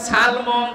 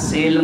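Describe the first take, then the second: First: The first vowel is an 'a' sound. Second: The first vowel is an 'i' sound.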